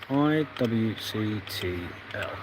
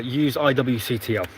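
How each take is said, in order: First: Each letter of I W C T L spaced out slowly and softly; slow spelled dictation. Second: Said in the usual way. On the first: Shown as a demonstration. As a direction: read I W C T L letter by letter while typing. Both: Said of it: "that would help if I read the installer".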